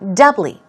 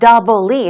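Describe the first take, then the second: First: The stress is on the first syllable. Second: The stress is on the second syllable. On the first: The speaker calls it right. "Stress goes on the first syllable" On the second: The speaker calls it wrong. "Not doubly"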